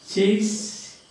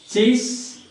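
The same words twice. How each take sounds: Both takes have the same delivery.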